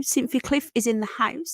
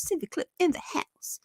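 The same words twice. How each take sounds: First: Said in the usual way. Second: Soft, whispery repeat of a greeting; whispered echo. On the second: Pretend. Streamer echoing a viewer shout-out, whispered. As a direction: echo it under your breath in a whisper.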